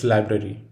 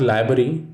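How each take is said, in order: First: "library" with both r's, LYE-brair-ee; "library" keeping every r; right library. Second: "library" as LYE-bair-ee, one r dropped; "library" without the first r; wrong library. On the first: Teacher showing students the right way, "library" with both r's. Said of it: "it's library". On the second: Teacher showing students the wrong way, "library" without the first r. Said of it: "It is not library". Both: Shown as a demonstration.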